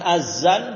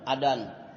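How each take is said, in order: First: The middle consonant is a plain z sound. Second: The middle consonant is a d sound. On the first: "bukan pakai z. Bukan azan" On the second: "Kalau pakai dal itu orang Sunda"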